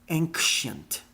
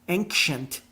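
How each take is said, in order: No difference in how they are said.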